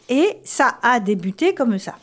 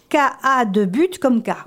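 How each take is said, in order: First: Ça is said with an s sound, accents kept. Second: Ça is said with a k sound, accents dropped. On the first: The speaker calls it right. "La première phrase" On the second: The speaker calls it wrong. "si on enlevait les signes, ça ferait"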